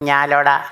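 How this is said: The name is clipped to a few syllables.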